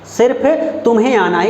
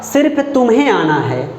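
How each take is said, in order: First: सिर्फ weighted first; stress on सिर्फ. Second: सिर्फ leaned on at the start; stress on सिर्फ. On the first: Teacher repeating for the class, stress on सिर्फ. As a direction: hit सिर्फ. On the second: Teacher showing the particle to students, stress on सिर्फ. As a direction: open with a pressed सिर्फ. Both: Shown as a demonstration. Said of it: "तो सिर्फ".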